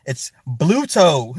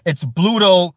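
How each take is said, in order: First: Bluto drawn out slow and firm; slow emphatic correction. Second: Said in the usual way. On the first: Shown as a demonstration. Correcting the producer who kept saying Brutus, slow and firm. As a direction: spell out Bluto slowly like a correction. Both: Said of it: "Y'all, please correct".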